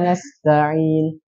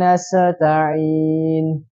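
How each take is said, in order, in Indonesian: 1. Bunyi s terputus tanpa aliran udara. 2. Bunyi s berakhir dengan gema yang memantul. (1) "Tidak dialirkan"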